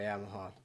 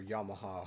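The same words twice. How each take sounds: First: "Yamaha" said the speaker's first way; first pronunciation. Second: "Yamaha" said as YAH-ma-ha; alternative pronunciation. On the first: Guitarist naming the maker, "Yamaha" as YAM-a-ha. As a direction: usual North American YAM-a-ha for "Yamaha". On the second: Guitarist offering another reading of the brand, "Yamaha" as YAH-ma-ha. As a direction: open AH in the first syllable of "Yamaha". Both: Shown as a demonstration. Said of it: "however you wanna pronounce it".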